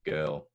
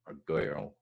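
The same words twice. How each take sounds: First: Put-on girl said as one tight syllable. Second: Put-on girl stretched as "gir-ul"; two-syllable Scots girl. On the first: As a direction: keep girl to one beat. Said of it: "a song that's been wrote for a one syllable". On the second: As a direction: sing girl with two beats. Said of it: "one syllable". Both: Shown as a demonstration. Songwriter comparing one- and two-syllable girl.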